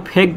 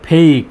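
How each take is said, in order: First: ফেক with a short plain "e", no glide; short-vowel mispronunciation. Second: ফেইক with a long "ei" glide, falling; long vowel. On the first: Teacher warns against a wrong form, short-vowel ফেক. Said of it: "সেটা আসলে সঠিক উচ্চারণ নয়". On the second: Teacher gives learners the correct form, long-vowel ফেইক. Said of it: "তাই সঠিক উচ্চারণ হবে". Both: Shown as a demonstration.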